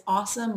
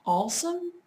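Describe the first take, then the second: First: Said in the usual way. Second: "awesome" said as "allsome", higher pitched; L put into "awesome". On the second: Retold or imitated. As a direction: imitate a fiance saying "awesome" with an L after the first vowel. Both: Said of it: "He kinda puts an L in".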